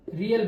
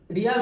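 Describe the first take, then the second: First: रियल said short as ree-ul, two light syllables; Cambodian currency name. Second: रियाल said with a long aa, ree-yaal; Qatari currency name. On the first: Teacher contrasting currencies, careful रियल. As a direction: say रियल with a short ul ending, no long aa. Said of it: "यहाँ rouble, यहाँ रियल". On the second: Teacher warning students, long-aa रियाल. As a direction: stretch the aa in रियाल. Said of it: "रियाल सो नहीं". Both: Shown as a demonstration.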